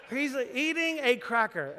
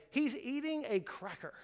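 First: Laughing. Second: Said in the usual way. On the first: Retold or imitated.

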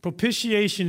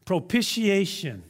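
First: Propitiation repeated, each syllable clear. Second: Propitiation said slowly, pro-pi-ti-A-tion. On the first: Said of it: "It's not a word you use a lot". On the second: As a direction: spell out propitiation syllable by syllable. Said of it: "and that is this word". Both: Shown as a demonstration.

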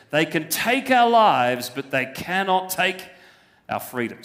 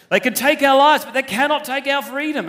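First: Said in the usual way. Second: Loud, high Braveheart rallying cry in a Scottish accent; rally the troops like Wallace, Scottish accent. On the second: Shown as a demonstration. Preacher does Wallace at Stirling Bridge, loud Scottish accent. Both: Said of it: "Sounds much better when it's in a Scottish accent".

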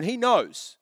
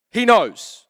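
First: Said in the usual way. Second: He knows, said louder with weight on He; stress on He. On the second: Shown as a demonstration. Pastor repeats it to drive it home, louder with stress on He. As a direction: punch He in He knows.

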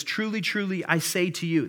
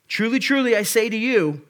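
First: Said in the usual way. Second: Higher, louder, each truly hammered; loud emphatic proclamation. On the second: Acted. Preacher voicing Jesus to listeners, loud emphatic proclamation. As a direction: proclaim it so the whole room looks up. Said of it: "that's what he's saying".

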